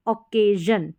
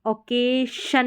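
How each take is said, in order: First: ओकेजन with long ay, then voiced zhun. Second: ओकेशन ending in unvoiced shun; hushing sh in ओकेशन, after a long ay; wrong sh in ओकेशन. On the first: Teacher modelling the right reading, ओकेजन with zh. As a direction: end ओकेजन on a buzzing zhun. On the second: Teacher showing the reading to avoid, ओकेशन with sh. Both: Shown as a demonstration. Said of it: "ओकेशन नहीं पढ़ेंगे".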